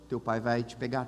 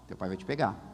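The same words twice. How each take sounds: First: It is said in a light, casual tone. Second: It is said in a heavy, ominous tone. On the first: Your father will come to give you a ride. "oh, beleza, não precisa ir a pé para casa" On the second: Your father found out and you are in trouble. "dependendo da diretora... O desespero pega"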